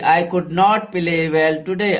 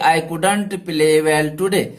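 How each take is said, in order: First: 'Could not' is said as two full words. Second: 'Could not' is squeezed into one word, 'couldn't'.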